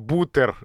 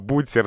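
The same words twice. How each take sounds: First: The t sound is hard, not palatalized. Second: The t sound is soft, palatalized. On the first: The speaker calls it wrong. "«бутер» с твердым «т»" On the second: The speaker calls it right. "«бутер» с мягким «т»"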